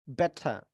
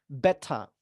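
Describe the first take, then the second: No difference in how they are said.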